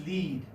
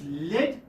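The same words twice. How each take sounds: First: "lead" with a long ee, like "leed"; long-vowel lead. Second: "lead" with a short e, like "led"; short-vowel lead. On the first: Teacher showing one spelling's two sounds, "lead" said as "leed". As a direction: say "lead" to rhyme with "need". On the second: Teacher showing one spelling's two sounds, "lead" said as "led". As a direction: say "lead" to rhyme with "bed". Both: Shown as a demonstration. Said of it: "this is pronounced as lead as well as lead".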